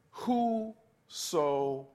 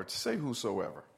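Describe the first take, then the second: First: "whosoever" stretched very slow; drawn-out whosoever. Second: Said in the usual way. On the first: Shown as a demonstration. Preacher prompting the church to say the word, very drawn out. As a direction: hold out "whosoever" slowly for the congregation to repeat.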